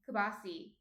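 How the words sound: The word ends in an 'ee' vowel. This is how New Jerseyans say it. "We say kibasi"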